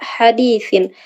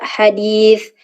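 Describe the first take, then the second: First: The word ends with a final -in sound. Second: The word ends on a bare th consonant. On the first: The word is joined to what follows. "ketika wasol dibaca hadithin" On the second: The reading stops on this word. "ketika wakof dibaca hadith"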